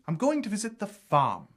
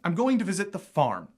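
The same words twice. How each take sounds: First: A standard British accent, with the r dropped. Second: An American accent, with the r in farm pronounced. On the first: "And in R P, that would be" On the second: "So in American, you might say"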